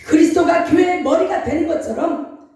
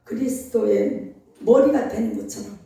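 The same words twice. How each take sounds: First: 그리스도가 pushed louder with a rising end; preached emphasis. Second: Said in the usual way. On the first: Shown as a demonstration. Pastor preaching to congregation, 그리스도가 stressed louder. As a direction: stress 그리스도가, lift the line.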